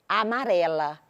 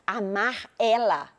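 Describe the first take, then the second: First: The two words run together into one word. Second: The two words are said as separate words.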